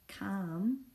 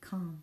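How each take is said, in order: First: The word is sounded out sound by sound. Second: The word is said the normal way. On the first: The speaker calls it wrong. "because you want to say ka-am, calm, but we don't pronounce it that way" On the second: The speaker calls it right. "We pronounce it calm"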